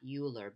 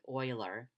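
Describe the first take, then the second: First: The name is not said like 'oiler'. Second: The name is said like 'oiler'. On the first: The speaker calls it wrong. "not Euler" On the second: The speaker calls it right. "It's pronounced like O I L E R"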